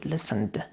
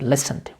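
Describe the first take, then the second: First: The stress is on the second syllable. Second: The stress is on the first syllable. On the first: The speaker calls it wrong. "We don't say listened" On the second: The speaker calls it right. "the first syllable is stressed, we have to say listened"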